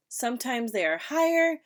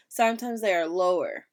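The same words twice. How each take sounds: First: Higher pitch. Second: Lower pitch. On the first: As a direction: lift the end higher. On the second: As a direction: let the end sink lower. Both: Shown as a demonstration.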